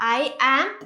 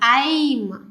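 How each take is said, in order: First: Two separate words are said in full. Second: The words are run together into one syllable.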